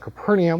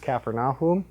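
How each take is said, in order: First: It begins with an English-style 'Caper' sound. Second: It begins with a 'Kafar' sound, meaning village. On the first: The speaker calls it wrong. "they corrected me" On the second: The speaker calls it right. "correct pronunciation is Capharnaum"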